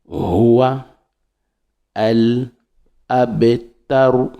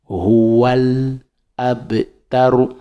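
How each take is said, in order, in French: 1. Les mots sont prononcés séparément, sans liaison. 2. Les mots sont liés en un seul flot. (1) "Ou bien on décompose" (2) "Là, on fait la liaison"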